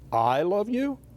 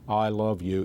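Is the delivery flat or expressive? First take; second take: expressive; flat. First: It is said with expressive emphasis. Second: It is said flat, without expression.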